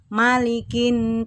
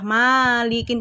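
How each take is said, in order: First: The first vowel is said short and quick. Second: The first vowel is drawn out long. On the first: The speaker calls it right. "Yang betul malikin, cepet ya" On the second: The speaker calls it wrong. "ada yang baca malikin, padahal itu tidak benar"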